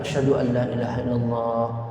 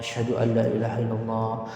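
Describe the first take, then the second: The two takes are said the same way.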